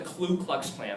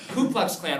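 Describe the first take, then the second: First: The first word has an l sound: kloo. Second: The first word has no l sound: koo. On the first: The speaker calls it wrong. "not the Klu Klux Klan. That's what kids say all the time" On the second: The speaker calls it right. "Ku, K U"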